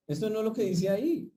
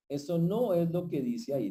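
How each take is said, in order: First: "ahí" lifted high in a rising question; rising emphasis. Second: "no" punched, then a falling finish; stress on NO. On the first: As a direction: Esto no es lo que dice "ahí", ending high and questioning. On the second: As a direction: hit "no" hard and let the line fall. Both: Real, not acted.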